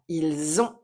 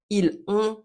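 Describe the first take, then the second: First: The final s links to the next vowel. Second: The two words are said separately, without linking. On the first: The speaker calls it right. "on va lier les éléments entre eux" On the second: The speaker calls it wrong.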